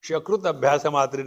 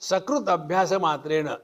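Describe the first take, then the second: First: The first word begins with an 'sh' sound. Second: The first word begins with a plain 's' sound. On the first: It accidentally means human excrement. The speaker calls it wrong. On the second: It means 'even once'. The speaker calls it right.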